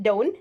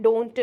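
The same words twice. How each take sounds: First: "don't" ending on the N, like "doan"; don't without T. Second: "don't" with an extra "tu" after the N; don't with released T. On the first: Teacher asking learners to copy, "don't" with silent T. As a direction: drop the T at the end of "don't". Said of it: "try to pronounce it don't". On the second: Teacher showing the version to avoid, "don't" ending in "tu". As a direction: pop the T of "don't" into its own syllable. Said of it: "not don't". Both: Shown as a demonstration.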